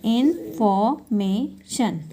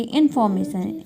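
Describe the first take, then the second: First: "information" very slowly in four parts; syllable by syllable. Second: Said in the usual way. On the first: Shown as a demonstration. Teacher dividing a word into four, slow and separated. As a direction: break "information" into इन, फॉर, मे, शन with gaps. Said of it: "parts में इसको divide किया". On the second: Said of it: "four syllable हो गए".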